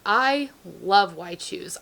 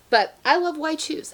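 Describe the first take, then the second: First: Said in the usual way. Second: Higher, gushing insistence on "I love Why Choose"; gushing emphasis. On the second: Shown as a demonstration. Confessing her love of Why Choose books, gushing. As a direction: blurt it out like a confession you're proud of. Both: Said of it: "I'm a huge Why Choose lover".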